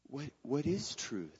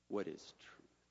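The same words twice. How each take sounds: First: It sounds like a sincere, genuinely curious question. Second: It sounds like a dismissive, rhetorical remark. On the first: The asker truly wants an answer. The speaker calls it wrong. "that he said, what is truth? And waited for his response to answer?" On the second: The asker expects no answer and walks away. The speaker calls it right. "perhaps it was more like, "What is truth?" And then walking back out"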